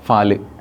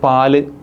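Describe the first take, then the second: First: The word begins with an f sound. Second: The word begins with a p sound.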